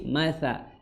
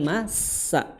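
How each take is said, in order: First: The consonant is a soft th sound. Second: The consonant is a plain hissing s sound. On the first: The speaker calls it right. "tapi masa mathala seperti itu" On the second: The speaker calls it wrong. "bukan masa"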